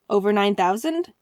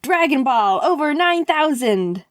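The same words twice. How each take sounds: First: Mild, questioning echo; puzzled question. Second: Drawn-out, rising announcer-style hype; hyped slogan. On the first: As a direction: repeat it back, not getting it. Acts his puzzled reply. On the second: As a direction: pitch it like a big catchphrase. Pitches her slogan with hype. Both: Retold or imitated.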